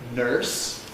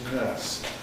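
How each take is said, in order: First: The vowel is coloured with an R sound. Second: The vowel is long with no R sound. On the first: This is how the word used to sound. "which used to be R-coloured" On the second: This is how the word sounds today. "we lost the R coloration in here, giving us the er pronunciation we now use"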